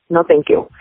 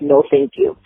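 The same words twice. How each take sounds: First: It is said in a harsh, blunt tone. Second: It is said in a polite, gentle tone. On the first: A firm refusal telling someone to back off. "I will put her flat on her ass" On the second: A kind refusal that spares feelings. "I can say it in a nice way"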